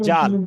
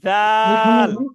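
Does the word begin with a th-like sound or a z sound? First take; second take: z sound; th sound. First: It begins with a hard z sound. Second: It begins with a soft th-like sound. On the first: The speaker calls it wrong. "জাল বলতে হলে দেখেন দুই দাঁত শক্ত করে লাগাতে হচ্ছে।" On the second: The speaker calls it right. "এর মাঝখানে জিহ্বাটা নিয়ে আসেন। এই যে দেখছেন জিহ্বার আগা"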